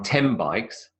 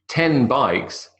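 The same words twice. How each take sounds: First: The word 'ten' ends in an m sound. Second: The word 'ten' ends in an n sound.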